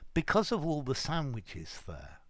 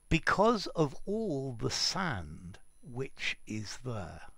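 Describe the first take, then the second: First: The sentence is said fast with words run together. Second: The sentence is said slowly with words kept apart. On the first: There are many sandwiches in the desert. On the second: There is a lot of sand in the desert.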